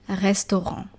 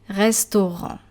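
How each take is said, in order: Both takes have the same delivery.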